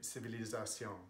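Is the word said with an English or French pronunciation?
French. The word is said with French pronunciation. The speaker calls it wrong. "We don't say civilisation"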